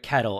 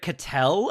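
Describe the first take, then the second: First: The stress falls on the first syllable. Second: The stress falls on the second syllable. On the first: "I've heard it Kettle" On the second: "I've heard it Cattell"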